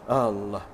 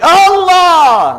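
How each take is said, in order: First: It is said softly and quietly. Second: It is shouted out loudly.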